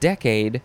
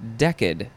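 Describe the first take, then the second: First: The word ends with a long 'ay' sound, like 'cade'. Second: The word ends with a short 'a' sound, like 'cad'. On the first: "Instead of decade" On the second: "you can say decad"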